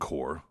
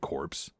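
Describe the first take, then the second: First: It is said like 'core', p and s silent. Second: It is said like 'corpse', p and s sounded. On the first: The speaker calls it right. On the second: The speaker calls it wrong.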